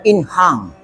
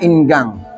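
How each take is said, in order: First: It is said with a Dutch pronunciation. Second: It is read with Indonesian letter sounds. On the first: "kalau Belandanya" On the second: "kalau kita baca"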